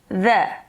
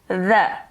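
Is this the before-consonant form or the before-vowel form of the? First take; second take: before-consonant; before-consonant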